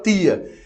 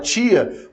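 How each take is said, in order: First: It is said in a Northeastern Brazilian accent. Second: It is said in a Brasília accent. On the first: "do Nordeste que fala tia" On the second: "em Brasília, eu sou de Brasília"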